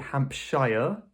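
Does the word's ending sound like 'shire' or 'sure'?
shire. The ending is a full, strong 'shire' sound. It sounds American. The speaker calls it wrong. "British people wouldn't say Hampshire, that's a bit American"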